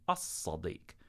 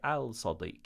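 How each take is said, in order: First: The L is absorbed into a doubled S. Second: The L is pronounced before the S sound. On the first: The speaker calls it right. "We say as-Sadiq" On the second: The speaker calls it wrong. "we don't say al-Sadiq"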